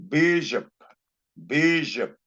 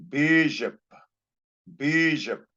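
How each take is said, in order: Both takes have the same delivery.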